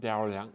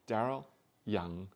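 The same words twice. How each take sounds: First: The two words run together without a break. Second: The two words are separated by a break. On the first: The speaker calls it wrong. "it kind of works in my tongue" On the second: The speaker calls it right. "I say it with two distinct separate words"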